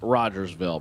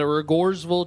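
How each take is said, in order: First: The first syllable sounds like 'rodge'. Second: The first syllable sounds like 'rig'. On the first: It follows the spelling of the name. "I'm pretty sure it's pronounced Rogersville" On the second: It follows the local way of saying the name. "the locals tell me otherwise"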